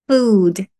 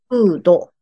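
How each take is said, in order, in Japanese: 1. この単語は子音の d で終わります。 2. この単語は母音の o で終わります。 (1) "D が優勢音なので" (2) "最後、おの口で終わってる？"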